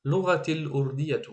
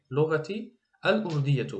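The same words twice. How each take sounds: First: الاردیه joined onto لغتی as lurdia, the al swallowed; read linked. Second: لغتی then a clean break and a full al in الاردیه; read separately. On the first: Teacher shows the linked Arabic reading. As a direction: run لغتی الاردیه together in one breath. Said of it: "اگر یک جای بخونیم". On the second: Teacher shows the separate Arabic reading. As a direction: pull لغتی and الاردیه apart, slowly. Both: Shown as a demonstration.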